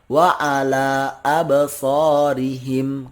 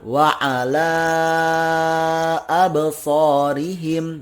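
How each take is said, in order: First: The final vowel of 'ala' is kept short. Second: The final vowel of 'ala' is stretched long. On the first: "Boleh juga cuma dua harokat" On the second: "Boleh sepanjang itu"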